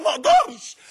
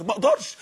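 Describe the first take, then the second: First: ما أقدرش flung out much higher and louder; preacher crying out ما أقدرش at the peak; impassioned cry. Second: Said in the usual way. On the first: Real, not acted. Preacher to the youth, crying out ما أقدرش.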